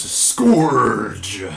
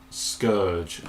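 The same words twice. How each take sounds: First: Scourge roared out loud, one long stretched syllable; drawn-out Scourge. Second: Scourge said short, in an ordinary speaking voice; corrected Scourge. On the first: Reviewer announcing a toy's name, Scourge loud and drawn out. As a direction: stretch the vowel of Scourge, much louder. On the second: Reviewer correcting himself on the toy's name, Scourge said short and unexaggerated. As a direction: say Scourge briefly, without stretching the vowel. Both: Shown as a demonstration. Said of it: "as you are meant to pronounce it".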